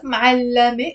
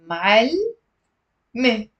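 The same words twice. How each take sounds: First: "ma'allame" with a vowel after the double l; three-beat "ma'allame", ending la-me; three syllables. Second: "ma'alme" slowly, long l, then a separate me; drawn-out "ma'alme" split into two beats; two syllables. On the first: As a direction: say "ma'allame" as m'al-la-me. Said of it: "female teacher is not ma'allame". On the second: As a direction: say "ma'alme" as m'all... me, no vowel after the l. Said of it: "it's ma'alme". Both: Shown as a demonstration.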